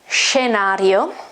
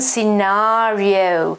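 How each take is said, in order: First: It is said with an Italian pronunciation. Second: It is said with an English pronunciation. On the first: "In Italian, the pronunciation is scenario, With a sh at the beginning" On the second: "This is the English transcription, phonetic transcription"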